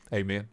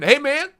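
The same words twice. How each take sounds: First: Low, soft "hey, man"; understated, low and soft; low-key greeting. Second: High, loud "hey, man" rising at the end; excited greeting. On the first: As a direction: drop it down to a quiet, casual hello. Same greeting repeated low and soft. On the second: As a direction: call it out high to someone you're glad to see. Greeting viewers, then repeats it low. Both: Real, not acted.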